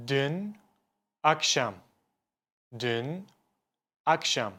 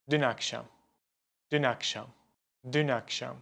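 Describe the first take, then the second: First: Dün and akşam split by a clear pause; words kept apart. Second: Dün akşam joined, the n flowing into akşam; linked words. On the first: Teacher showing the unlinked way, words kept apart. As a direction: say Dün, stop, then akşam. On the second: Teacher showing ulama, words linked smoothly. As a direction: run dün akşam together as one word. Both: Shown as a demonstration. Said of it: "I say it like".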